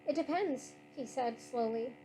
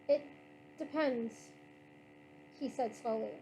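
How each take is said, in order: First: The line is read at a fast pace. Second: The line is read at a slow pace. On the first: The speaker calls it wrong. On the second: The speaker calls it right.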